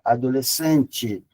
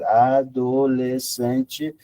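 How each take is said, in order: First: The word is said fast. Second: The word is said slowly. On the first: "سرعت آدمای بومی اینو بگید" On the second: "یواش میکنید"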